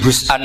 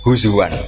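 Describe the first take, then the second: First: A glottal stop comes after the z sound. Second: A w sound comes after the z sound. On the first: "ini hamzah" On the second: "ditakhfif jadi wawu"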